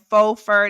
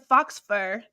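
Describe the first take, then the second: First: The first word has no final 'ks' sound. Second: The first word ends with a 'ks' sound. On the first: The speaker calls it right. "instead of saying faux fur" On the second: The speaker calls it wrong. "that's not right"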